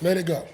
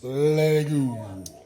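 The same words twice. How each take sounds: First: It is said in a normal speaking voice. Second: It is said in a put-on Frozen voice.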